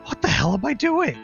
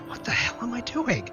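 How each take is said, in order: First: It is said in a normal speaking voice. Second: It is muttered quietly under the breath.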